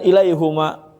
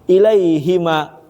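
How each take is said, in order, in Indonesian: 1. Vokal setelah h adalah 'u'. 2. Vokal setelah h adalah 'i'. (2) "jadinya hi bacanya"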